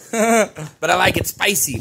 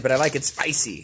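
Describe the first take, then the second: First: Said with a laugh, louder and higher. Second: Said in the usual way. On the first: Real, not acted. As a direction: laugh through the catchphrase. Punchline about his last name.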